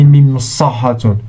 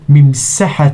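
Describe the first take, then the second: First: The s is the heavy, emphatic s sound. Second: The s is the light, plain s sound. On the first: The speaker calls it wrong. "We don't say" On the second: The speaker calls it right. "سين س س"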